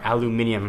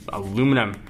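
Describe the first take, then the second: First: Said with five syllables, British style. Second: Said with four syllables, American style. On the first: "your folks in Europe" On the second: "my pronunciation"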